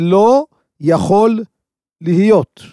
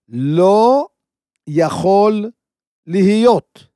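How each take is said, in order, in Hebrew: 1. זה נאמר בקצב ובעוצמת קול רגילים. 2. זה נאמר בקול רם יותר, לאט יותר ובהדגשה רבה יותר.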